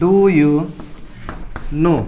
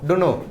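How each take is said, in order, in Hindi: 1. बीच वाला शब्द you साफ़ बोला गया है। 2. बीच वाला शब्द you पूरी तरह छूट गया है। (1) "डू यू नो होता है ना" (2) "यू को भी साइलेंट कर देते हैं लोग"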